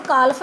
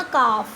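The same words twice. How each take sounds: First: ਕਾਲਫ with the L pronounced; L sounded. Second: ਕਾਫ with no L, long vowel straight into F; silent L. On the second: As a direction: model ਕਾਫ slowly, leaving the L silent. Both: Shown as a demonstration. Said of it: "ਇਹਨੂੰ ਕਾਲਫ ਨਹੀਂ ਬੋਲਣਾ".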